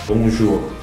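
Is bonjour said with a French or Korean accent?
French. It has a French accent with no extra final vowel. The speaker calls it right. "근데 진짜 발음하고 싶으면 봉주를 안 돼"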